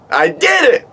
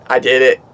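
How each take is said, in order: First: Much higher victorious cry; triumphant squeal. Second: Said in the usual way. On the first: Retold or imitated. Bat flies off, high triumphant cry. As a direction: squeal it like you won. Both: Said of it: "I screamed".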